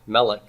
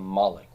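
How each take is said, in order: First: The stressed vowel is short, in its usual form. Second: The stressed vowel is lengthened, in its pausal form. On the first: The word stands in ordinary context. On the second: The word stands at a strong pause.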